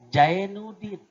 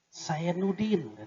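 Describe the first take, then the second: First: The name begins with a j sound. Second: The name begins with an s sound. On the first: "J jarin" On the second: "Sin jarin"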